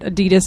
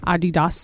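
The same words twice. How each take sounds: First: It is pronounced the American English way. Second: It is pronounced the German way. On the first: The speaker calls it wrong. "Adidas is not the way the company is pronounced in German" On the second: The speaker calls it right. "how's it pronounced in German?"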